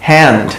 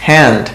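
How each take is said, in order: Both takes have the same delivery.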